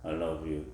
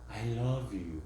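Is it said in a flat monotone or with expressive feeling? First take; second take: flat monotone; expressive. First: It is said in a flat monotone. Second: It is said with warm, expressive feeling.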